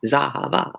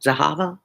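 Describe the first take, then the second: First: Zahava with the last syllable stressed, za-ha-VA. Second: Zahava with the middle syllable stressed, za-HA-va. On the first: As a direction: land on a full VA in Zahava. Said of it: "so many places I hit the accent". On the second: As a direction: lean on the HA in Zahava. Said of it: "I don't know where the accent goes". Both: Shown as a demonstration.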